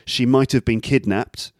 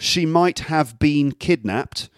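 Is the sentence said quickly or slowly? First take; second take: quickly; slowly. First: It is said quickly with the words reduced. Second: It is said slowly with each word clear.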